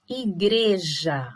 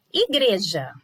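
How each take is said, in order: First: "igreja" slowly stretched into i-GRE-ja; syllable by syllable. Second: Said in the usual way. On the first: Shown as a demonstration. Teacher showing syllable separation, slow and measured. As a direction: draw out each syllable of "igreja". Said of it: "Olha lá, separação".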